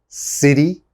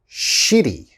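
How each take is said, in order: First: The word begins with an s sound. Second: The word begins with a sh sound. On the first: The speaker calls it right. "You have to pronounce that city" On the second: The speaker calls it wrong. "a lot of my students say shitty"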